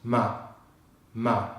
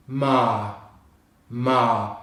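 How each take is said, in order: First: "ma" cut short, vowel not extended. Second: "Ma" with a long drawn "ah", no r; long vowel, silent R. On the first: Teacher showing learners the mistake, short "ma". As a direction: chop "ma" off quickly. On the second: Teacher modelling British March, long open "Ma". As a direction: stretch the vowel in "Ma". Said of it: "we extend the pitch on the vowel sound". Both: Shown as a demonstration.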